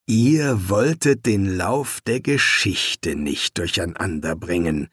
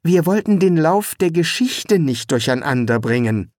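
First: Slowly repeating each word, deadpan. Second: Said in the usual way. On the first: Acted. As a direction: echo it back slowly, dry. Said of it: "wiederholte Laveolus langsam". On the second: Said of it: "erklärte Eric".

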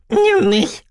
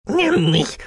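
First: Viel höher und lauter quengelnd; noch quengeliger. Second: Hoch, quengelnd, verzerrt; quengelnde Kanne. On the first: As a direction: steigere das Betteln zum Quieken. (noch höher, lauter und quengelnder) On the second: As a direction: wie ein bettelnder alter Kessel. (quengelnde, verzerrte Maschinenstimme) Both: Acted. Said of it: "quengelte sie".

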